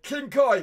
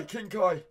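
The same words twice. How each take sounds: First: "King Kai" said higher and louder; first try at name. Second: Said in the usual way. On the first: Shown as a demonstration. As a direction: announce "King Kai" with a lifted push.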